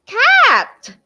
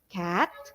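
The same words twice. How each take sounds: First: The word is said in a loud voice. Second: The word is said in a soft, quiet voice. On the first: "to my loud voice" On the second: "from the soft voice"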